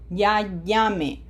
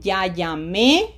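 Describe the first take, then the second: First: "ya llame" with stressed "lla" and a falling end; weight the first syllable of "llame", drop the e. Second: Slow "Ya llamé", rising loud onto the final é; stress on final É. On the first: Teacher letting pupils hear the difference, first-syllable stress on "llame". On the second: Teacher letting pupils hear the difference, final-syllable stress on "llamé". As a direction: lift and punch the last syllable of "llamé". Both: Shown as a demonstration. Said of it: "to pronounce the difference".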